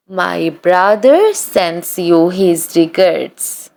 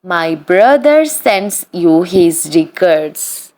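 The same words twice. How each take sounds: The two takes are said the same way.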